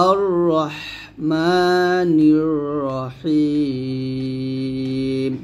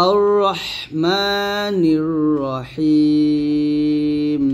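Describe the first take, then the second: Both takes have the same delivery.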